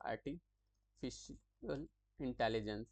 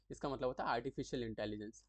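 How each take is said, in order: First: Slow, spelled-out "artificial intelligence" for students; slow repeat. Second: Said in the usual way. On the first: Shown as a demonstration. Teacher repeating the term for students, slow and clear. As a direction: drag out "artificial intelligence" so the class can write it. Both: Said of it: "फिर से मैं बता देता हूँ".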